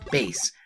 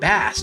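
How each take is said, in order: First: The vowel rhymes with 'face', like the musical bass. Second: The vowel rhymes with 'mass', like the fish. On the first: The name refers to the low musical register. "since his Japanese name is Forte, and his dog's name is Treble, that his name is in fact Bass" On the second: The name refers to the fish. "pronounced Bass due to the fact that his helmet has a fish fin shape"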